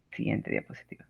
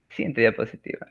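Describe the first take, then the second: First: Quick whisper under the breath; whispered aside. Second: Said in the usual way. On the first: Real, not acted. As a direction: whisper it off-mic. Aside to slide operator.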